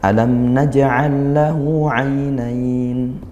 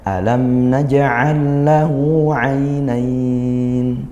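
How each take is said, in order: First: The final word's vowel is held briefly. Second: The final word's vowel is held moderately long. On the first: The recitation is at a fast tempo. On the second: The recitation is at a moderate tempo. "kalau kita sedang ... dua alif"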